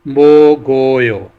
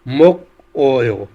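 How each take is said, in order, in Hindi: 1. अंतिम व्यंजन अगले अक्षर में चला जाता है। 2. अंतिम व्यंजन पहले अक्षर के साथ रहता है। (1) "कैरी होकर ईयन की जगह चला जाएगा" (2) "ये नेक्स्ट लफ्ज़ है"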